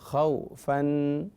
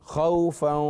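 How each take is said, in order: First: A short break splits the word in two. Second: The word is said smoothly without any break. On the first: "मैं सिर्फ समझाने के लिए थोड़ा सा ब्रेक लेता हूँ कलमे के बीच में" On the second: "वक्फ नहीं करना"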